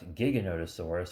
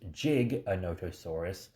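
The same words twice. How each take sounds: First: The name begins with a hard g sound. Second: The name begins with a j sound. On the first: The speaker calls it wrong. "not Giganotosaurus" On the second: The speaker calls it right. "it is pronounced Giganotosaurus ... because he loves to dance and do a little jig"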